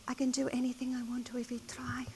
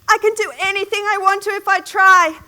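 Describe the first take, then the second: First: It is said at a soft volume. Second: It is said at the loudest volume.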